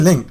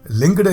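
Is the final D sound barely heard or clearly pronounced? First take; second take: barely heard; clearly pronounced. First: The final D sound is barely heard. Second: The final D sound is pronounced clearly. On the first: "barely say the D at the end" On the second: "he would pronounce the D um, quite prominently"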